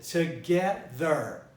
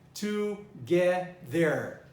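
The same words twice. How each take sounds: First: The stress is on the middle syllable. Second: The stress is not on the middle syllable. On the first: The speaker calls it right. "So I stressed get" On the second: The speaker calls it wrong. "I didn't say together"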